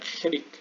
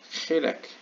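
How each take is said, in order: First: The second vowel sounds like 'i'. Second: The second vowel sounds like 'e'. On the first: This is the name used in modern Hebrew. "현대 히브리어에서는 히, 히릭라고도 하거든요" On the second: This is the name used in this text. "여기서는 히렉이라고 했는데"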